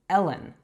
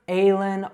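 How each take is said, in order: First: The first vowel is a short e. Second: The first vowel is not a short e. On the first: The speaker calls it right. "it's Ellen. So those short E sounds are eh" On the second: The speaker calls it wrong. "it's not Aylin or Allen"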